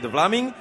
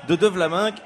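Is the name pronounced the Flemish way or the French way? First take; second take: Flemish; French. First: The name is given a Flemish pronunciation. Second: The name is given a French pronunciation. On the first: It is how the name is really said. "mais c'est de Vlaming" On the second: It is adapted for a French audience. "je prononce de Vlaminck pour les Français"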